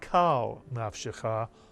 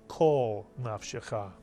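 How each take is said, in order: First: The first vowel is an open 'ah' sound. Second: The first vowel is a rounded 'aw' sound. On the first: The speaker calls it wrong. "not kal nafshecha" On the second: The speaker calls it right. "retains the aw sound"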